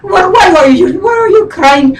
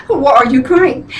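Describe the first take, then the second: First: Higher-pitched imitation of a friend; friend's voice. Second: Said in the usual way. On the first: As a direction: mimic your friend, incredulous and high. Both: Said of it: "she talks like this".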